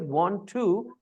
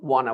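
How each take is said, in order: First: Both words are said fully and separately. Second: The words are blended into one reduced word. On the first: "the word is want to" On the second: "they have changed it into wanna"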